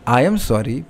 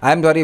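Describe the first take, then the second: First: It sounds clear and sincerely apologetic. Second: It sounds casual and dismissive, not apologetic.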